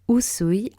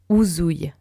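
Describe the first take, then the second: First: The middle consonant is a hissing S sound. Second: The middle consonant is a buzzing Z sound. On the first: The speaker calls it right. "avec un S" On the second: The speaker calls it wrong. "comme avec un Z"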